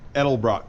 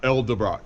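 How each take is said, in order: First: The name begins with the sounds 'Edel'. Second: The name begins with the sounds 'Elde'. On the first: The speaker calls it right. "I said it right that time" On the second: The speaker calls it wrong.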